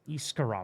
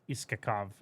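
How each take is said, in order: First: The name is said with an R sound. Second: The name is said without an R sound.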